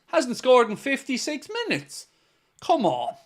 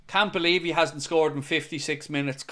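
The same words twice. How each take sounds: First: Higher, put-on American owner voice; hammy impression of the club owner; John W. Henry impression. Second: Said in the usual way. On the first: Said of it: "That's my best John W. Henry". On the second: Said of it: "I apologise for my horrendous impressions".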